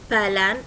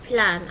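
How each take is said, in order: First: A vowel sound separates the p and l. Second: The p and l are joined directly. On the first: The speaker calls it wrong. "ما اقول بلان" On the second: The speaker calls it right. "اقول plan على طول مع بعض"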